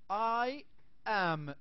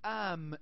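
First: Both words are said fully and separately. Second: The two words merge into one syllable. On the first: "I am كيف ممكن اختصارها؟" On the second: "this is the contraction of I am"

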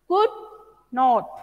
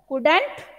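First: It is said as two separate full words. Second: It is said as one contracted word.

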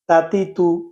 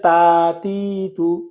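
First: The vowels are short and quick. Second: The vowels are drawn out long. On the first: The speaker calls it right. "হরকতের উচ্চারণ কি হয়? তাড়াতাড়ি হয়।" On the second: The speaker calls it wrong. "কেউ যদি বলে তাতি তু, তাহলে সেটা কি হবে? ভুল হবে।"

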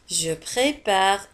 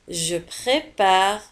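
Both takes have the same delivery.

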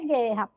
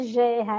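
First: It begins with a hard g sound. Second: It begins with a soft zh sound. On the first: The speaker calls it right. "é guerra" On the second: The speaker calls it wrong. "não é gerra"

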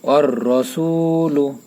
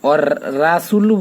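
First: The r is thick, with a dark vowel. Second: The r is thin, with an open a. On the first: The speaker calls it right. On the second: The speaker calls it wrong.

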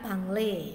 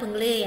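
First: The first vowel sounds like 'a'. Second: The first vowel sounds like 'e'. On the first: This is how some other people say it. "ada beberapa orang yang mengatakannya bangle" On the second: This is how Javanese speakers say it. "kalau orang Jawa bilang bengle ya"

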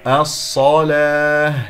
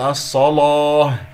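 First: The L sound is light and thin. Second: The L sound is heavy and thick. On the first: The speaker calls it right. "اللام مرققة" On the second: The speaker calls it wrong. "لا أقول الصلاة"

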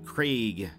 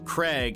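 First: The vowel is a gliding diphthong. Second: The vowel is short, like in egg. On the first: "the British pronunciation sounds the diphthong Craig" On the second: "In North America, it is often pronounced with a short vowel sound, Craig, as in egg"

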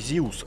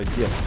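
First: It is said like English 'Zeus', without a v. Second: It is said the Russian way, ending in 'evs'. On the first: This is the form they do not use. "мы их называем не Зиус" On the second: This is the form they use. "называть по-русски как есть"

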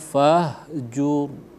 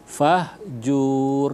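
First: The final syllable jur is kept short. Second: The final syllable jur is drawn out long. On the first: The speaker calls it right. "langsung masuk ke dalam huruf ro. Warrujza fahjur gitu" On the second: The speaker calls it wrong. "Jur itu jangan dipanjangkan, ya. Fahjur enggak boleh"

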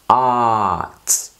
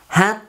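First: It is said with an English pronunciation. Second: It is said like the Vietnamese word hát. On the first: The speaker calls it right. "no. Heart, heart" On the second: The speaker calls it wrong. "Nhiều khi chúng ta hay đọc thành là hát"

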